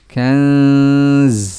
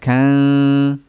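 First: The word ends with a sharp hissing z. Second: The word ends on n with no z. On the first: The speaker calls it right. "tapi za-nya ditambahkan" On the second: The speaker calls it wrong. "Jangan kan"

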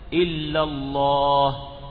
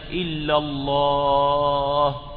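First: The long vowel is held for two counts. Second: The long vowel is stretched well beyond two counts. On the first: The speaker calls it right. "لأنه مد طبيعي ومد مقدار حركتين" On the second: The speaker calls it wrong. "فإذا مددتها فوق ذلك"

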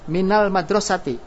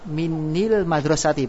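First: The vowel after min is a. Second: The vowel after min is i. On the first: The reading is light and easy to say. The speaker calls it right. "dihidupkan dengan fathah ... fathah li takhfif" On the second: The reading is heavy with two i vowels. The speaker calls it wrong. "kalau dibaca kasro menjadi berat"

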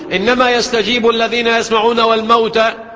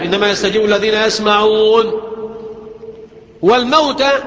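First: The last word runs on without any stop. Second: There is a full stop before the last word. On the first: The dead are also among those who hear. The speaker calls it wrong. "والموتى برضو بيسمعوا" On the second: Only those who hear respond; a new sentence starts about the dead. The speaker calls it right. "هنا وقف لازم"

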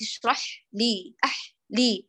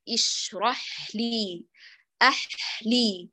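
First: The h sound flows briefly, then stops. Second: The h sound flows fully into the next sound. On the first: The speaker calls it wrong. "لو قطعتي بعد أن يجري جزءا" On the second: The speaker calls it right. "الصواب"

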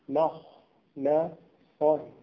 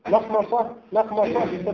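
First: The word is said slowly, syllable by syllable. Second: The word is said quickly. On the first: The speaker calls it right. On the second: The speaker calls it wrong.

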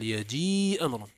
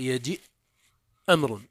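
First: The first word ends in a vowel, no stop. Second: The first word ends with a glottal stop. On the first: The speaker calls it right. "وإنما تقول يجيء أمر هكذا يتكلمون به" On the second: The speaker calls it wrong. "لا يجوز أن تقول يجيء أمر هكذا"

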